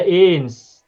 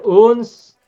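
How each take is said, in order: First: "ins" drawn out slowly, clear i. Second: "uns" drawn out slowly, u rounded. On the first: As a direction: stretch out "ins" to show the vowel. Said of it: "ada ins". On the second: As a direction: stretch out "uns" to show the vowel. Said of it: "Ada uns". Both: Shown as a demonstration.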